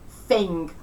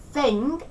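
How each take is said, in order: First: Cockney "thing" said as "fing"; slow "thing" with the TH fronted to F; F fronting. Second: Said in the usual way. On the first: Shown as a demonstration. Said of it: "F fronting". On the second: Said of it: "pronounced with a more forward consonant".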